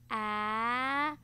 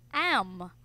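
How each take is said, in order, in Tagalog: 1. Ang dalawang tunog ay binibigkas nang dahan-dahan at hiwalay. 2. Ang dalawang tunog ay binibigkas nang mabilis bilang isa. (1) "Sound sabay" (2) "Gawin na po natin ng mabilis"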